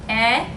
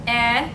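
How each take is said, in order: First: The vowel is short, as in bet. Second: The same.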